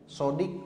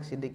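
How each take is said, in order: First: The first vowel is a darker 'o' sound. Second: The first vowel is a plain 'i' sound. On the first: The speaker calls it right. "Sodik bagus" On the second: The speaker calls it wrong. "tidak enak sidik itu"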